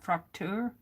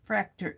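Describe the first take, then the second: First: The word is said with an ah vowel. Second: The word is said without an ah vowel. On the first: The speaker calls it right. "I think it's got more of an ah sound" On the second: The speaker calls it wrong. "I'm probably pronouncing that wrong"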